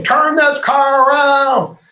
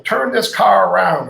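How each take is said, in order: First: High, loud and slow mock outburst; imagined angry demand. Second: Said in the usual way. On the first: The complaining passenger imagined snapping at the driver, hammed-up loud. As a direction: ham up a passenger's huffy demand. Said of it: "I was waiting for him to say". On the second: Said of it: "Oh, he's gonna get me to turn".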